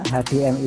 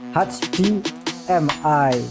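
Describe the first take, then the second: First: The letters are named the Indonesian way. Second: The letters are named the English way. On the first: "rata-rata menyebutnya H D M I saja" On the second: "kalau di Inggris kan ya"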